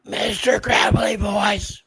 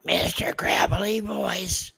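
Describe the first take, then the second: First: High, raspy whispered gravelly voice; RFK Junior impression. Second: High, raspy whispered gravelly voice; strained breathy rasp, like a worn-out voice; RFK Junior impression. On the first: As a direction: rasp it out like a strained old politician. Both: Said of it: "I did an impersonation of R F K Junior".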